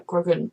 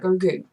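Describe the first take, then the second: First: The name ends with an 'an' sound. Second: The name ends with an 'oo' sound. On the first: This is how one character seemed to say it. "the first time she said it, it sounded kind of like Grogan" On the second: This is how another character says it. "when he says it, it sounds like Grogu"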